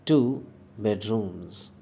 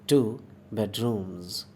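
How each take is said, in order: No difference in how they are said.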